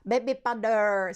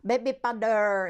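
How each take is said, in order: First: It is said with a Japanese accent. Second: The same.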